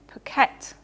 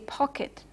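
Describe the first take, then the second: First: The stress is on the second syllable. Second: The stress is on the first syllable. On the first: The speaker calls it wrong. "not pocket" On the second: The speaker calls it right. "The preceding vowel is stressed"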